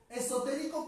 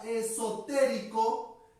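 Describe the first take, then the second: First: Said in the usual way. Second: Esotérico drawn out slowly; slow careful stress. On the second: Shown as a demonstration. Teacher showing the board, slow drawn-out esotérico. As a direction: stretch esotérico slowly with a rising end. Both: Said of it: "de esto de acá".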